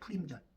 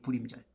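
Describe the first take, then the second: First: The word starts with a strongly aspirated p sound. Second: The word starts with a soft unaspirated b sound. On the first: This is the original pronunciation of the name. The speaker calls it right. "원래는 그 발음이 푸림이고" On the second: This is the form used in the Korean Bible. The speaker calls it wrong. "개혁개정 성경에 이제 불임절이라 그러죠"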